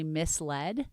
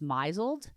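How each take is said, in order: First: It sounds like 'miss-led', ending in 'led'. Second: It sounds like 'mizzled', rhyming with 'drizzled'. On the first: The speaker calls it right. "it turns out it's actually misled" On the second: The speaker calls it wrong. "one of the words that I always thought you said was misled"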